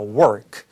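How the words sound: The vowel is strongly R-colored, tongue pulled back. "북미 영어, R 사운드 정확하게 혀를 이렇게 당기면서"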